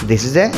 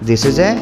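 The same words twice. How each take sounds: No difference in how they are said.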